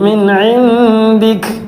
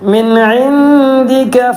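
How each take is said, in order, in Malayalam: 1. ഈ വാക്ക് ശുദ്ധ വ്യഞ്ജനത്തിൽ അവസാനിക്കുന്നു. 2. ഈ വാക്ക് ഹ്രസ്വ സ്വരത്തിൽ അവസാനിക്കുന്നു. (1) "കാഫിന് സുക്കൂൻ ചെയ്തു" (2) "അവിടെ ഇൻദിക എന്നാണുള്ളത്"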